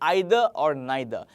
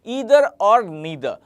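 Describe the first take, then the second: First: The words begin with an 'eye' vowel sound. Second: The words begin with an 'ee' vowel sound. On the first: The speaker calls it right. "इसे हम बोलेंगे आइदर और नाइदर" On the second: The speaker calls it wrong. "इसको ईदर या नीदर नहीं बोलेंगे"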